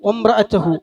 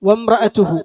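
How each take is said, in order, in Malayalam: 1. ത എന്നതിന് ശേഷമുള്ള സ്വരം മങ്ങിയതും വ്യക്തമല്ലാത്തതുമാണ്. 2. ത എന്നതിന് ശേഷമുള്ള സ്വരം വ്യക്തമായ u ആണ്.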